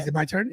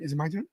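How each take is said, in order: First: Said in the usual way. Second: Softer, whispered question. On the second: Real, not acted. Cohost whispering to host if it's time. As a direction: whisper it eagerly.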